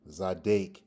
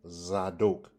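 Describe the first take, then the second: First: The second syllable has an A vowel. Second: The second syllable has an O vowel. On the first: "you have a A sound, Zadek" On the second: "you have an O sound in Zadok"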